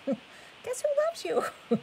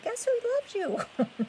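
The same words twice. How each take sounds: First: Otter voice. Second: Very high squeaky otter voice. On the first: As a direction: stretch it out in a tiny critter voice. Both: Pretend. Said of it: "That was my best otter voice".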